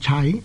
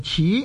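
First: The character is read like the word 齐. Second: The character is read like the word 此. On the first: "第一个读音呢就是读做齐" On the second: "第二呢就读做此"

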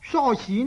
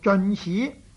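First: The first syllable is pronounced so. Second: The first syllable is pronounced zeon. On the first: The speaker calls it right. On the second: The speaker calls it wrong.

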